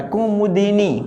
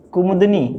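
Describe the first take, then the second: First: कुमुदिनी syllable by syllable, ku-mu-di-ni; correct form. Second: कुमुदनी without an i after द; wrong form. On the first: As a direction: sound a clear दि in कुमुदिनी. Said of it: "कुमुदिनी होता है". (कुमुदिनी में दि साफ़, अलग-अलग अक्षर) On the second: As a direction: run द straight into नी in कुमुदनी. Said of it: "कुमुदनी गलत है भैया". (कुमुदनी में द पर इ की मात्रा नहीं) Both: Shown as a demonstration.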